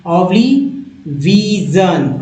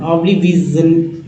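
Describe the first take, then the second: First: ओब्लिविजन drawn out slowly, each syllable clear; teacher pacing ओब्लिविजन for students; slow read-along. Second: Said in the usual way. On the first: Shown as a demonstration. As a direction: say ओब्लिविजन slowly so the class can repeat. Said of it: "कैसे पढ़ना है मेरे साथ पढ़िए". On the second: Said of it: "मेरे साथ पढ़िए".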